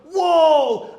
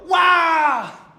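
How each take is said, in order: First: Loud, high shout of admiration; amazed wow. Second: Loud, high shout of astonishment; astonished wow. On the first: Synagogue crowd admiring Jesus's teaching, shouting wow. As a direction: belt out a delighted wow. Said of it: "Hace rato se admiraron, dijeron". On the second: Synagogue crowd stunned by the exorcism, shouting wow. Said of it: "Ahora se asombraron, dijeron". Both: Acted.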